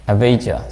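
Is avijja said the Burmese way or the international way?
international. It is said the foreign, non-Burmese way. "other foreigners, they pronounce avijja"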